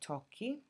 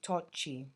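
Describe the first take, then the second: First: The double consonant has a hard k sound. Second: The double consonant has a soft ch sound. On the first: The speaker calls it right. "So when you say tocchi" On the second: The speaker calls it wrong. "If we didn't have the H, it would be tocci, and that doesn't sound correct"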